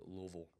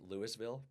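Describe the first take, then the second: First: The name is drawn out and slurred together. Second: The name is said crisply, each syllable distinct. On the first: The speaker calls it right. "you have to let it draw" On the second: The speaker calls it wrong. "I used to say it wrong"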